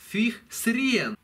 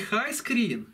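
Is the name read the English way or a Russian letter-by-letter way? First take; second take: Russian; English. First: It is pronounced as a Russian-style letter reading. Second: It is pronounced as English 'high screen'. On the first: The speaker calls it wrong. "а fih sren" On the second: The speaker calls it right. "название не high screen"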